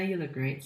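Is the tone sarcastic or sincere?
sarcastic. It is said in a flat, sarcastic tone. The compliment is dismissive, as if to say so what. "The tone might sound a bit critical, like sarcastic"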